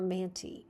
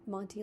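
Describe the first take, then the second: First: The first vowel is like 'a' in 'can'. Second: The first vowel is like 'o' in 'cot'. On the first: "M A N" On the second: "like M O N T Y Monty"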